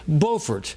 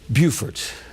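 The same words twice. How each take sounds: First: The first syllable sounds like 'bo'. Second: The first syllable sounds like 'byoo'. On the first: This is the name of the North Carolina town. "In the state of North Carolina, it's called Beaufort" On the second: This is the name of the South Carolina town. "And in South Carolina, the folks down there say Beaufort"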